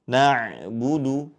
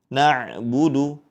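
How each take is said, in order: No difference in how they are said.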